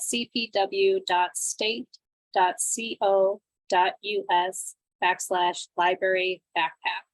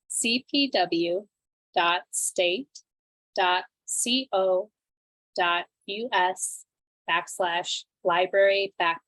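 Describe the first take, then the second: First: The address is read quickly. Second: The address is read slowly. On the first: The speaker calls it wrong. "went through that real fast" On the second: The speaker calls it right. "I'm going to say that slower"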